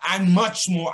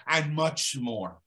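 First: And much more, punched louder, stress on much. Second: Said in the usual way. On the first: Retold or imitated. Repeating his answer to hammer it home, stressing much. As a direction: hit much hard on the repeat.

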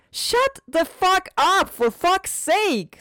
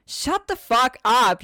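First: Furious scream. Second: Angry snap. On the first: Wife screams at husband. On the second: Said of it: "she snapped". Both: Acted.

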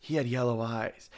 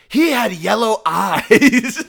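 First: Said in the usual way. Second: "He had yellow eyes" high, slow and louder; dramatic quote. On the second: Retold or imitated. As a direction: declaim "He had yellow eyes" like a spooky movie line. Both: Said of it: "I always, like".

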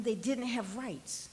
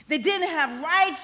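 First: Soft, low and slow; hushed, sober statement. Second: Firm, raised voice, slow and emphatic; forceful preaching. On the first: Preacher on children in Jesus' time, hushed and sober. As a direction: let it land quietly on the congregation. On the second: Preacher on children in Jesus' time, forceful and emphatic. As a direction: drive it home to the congregation. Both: Real, not acted.

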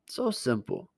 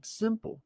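First: Said in the usual way. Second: "Simple." jumped up high then falling; "Simple" पर ज़ोर, ऊँची आवाज़ से गिरता हुआ; emphatic high "Simple". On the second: Real, not acted. Preacher stresses simplicity.

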